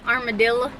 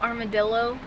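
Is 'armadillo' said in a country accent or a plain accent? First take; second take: country; plain. First: The word is said in a mock country accent. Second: The word is said in a plain, standard accent. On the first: "I used to say armadillo" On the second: "instead of armadillo"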